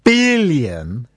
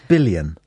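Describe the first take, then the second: First: The word is said in a dramatic newsreader style. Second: The word is said in a plain, ordinary way. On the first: The number is made to seem bigger. "They always go billion, billion, like that" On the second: The number is stated simply. "I didn't give it the newsreader's accent there"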